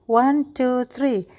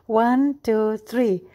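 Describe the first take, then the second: No difference in how they are said.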